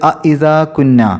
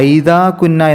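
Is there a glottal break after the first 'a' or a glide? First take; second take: break; glide. First: A glottal break separates the two vowels. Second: The vowels glide together into one 'ai' sound. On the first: The speaker calls it right. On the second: The speaker calls it wrong.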